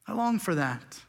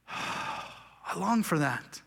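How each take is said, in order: First: Said in the usual way. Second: Soft, slow, longing sigh. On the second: Real, not acted. Pastor yearning for rest, sighing softly. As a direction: breathe it out with longing.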